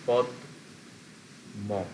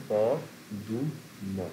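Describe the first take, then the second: First: "পদ ম" split in two, closed পদ, pause, then ম; teacher's two-beat demo of "পদ ... ম"; two syllables. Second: "প দু ম" drawn out slowly, one syllable at a time; very slow teacher's demo of "প দু ম" with the উ sounded; three syllables. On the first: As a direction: say পদ as one syllable, then ম apart. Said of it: "দুটো syllable ছিল". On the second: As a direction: stretch প, দু and ম as three separate beats. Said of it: "তিনটে syllable হয়ে গেল". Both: Shown as a demonstration.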